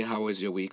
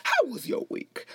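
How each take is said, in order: First: Said in the usual way. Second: Very high talk-show catchphrase voice; Wendy Williams. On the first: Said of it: "I really wanna say". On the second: Shown as a demonstration. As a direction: start way up high and swoop down. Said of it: "that way, like".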